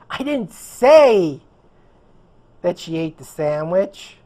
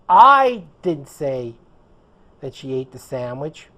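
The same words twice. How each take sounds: First: The word "say" carries the strongest stress. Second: The word "I" carries the strongest stress. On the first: It was implied, not said outright. "I implied it" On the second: Someone else said it. "which would mean it wasn't me. Someone else said it"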